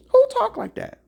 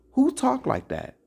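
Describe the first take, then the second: First: Who shouted much higher and louder; shouted question. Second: Said in the usual way. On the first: Real, not acted. Preacher shouting Who at his listeners. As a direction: fling Who at the crowd.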